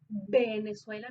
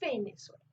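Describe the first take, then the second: First: The first sound is made with both lips. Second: The first sound uses the teeth on the lip. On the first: The speaker calls it wrong. "Venezuela no es" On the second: The speaker calls it right. "es Venezuela"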